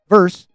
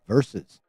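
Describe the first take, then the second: First: The word is said with one syllable. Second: The word is said with two syllables. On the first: The speaker calls it wrong. "Not verse" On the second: The speaker calls it right. "two syllables"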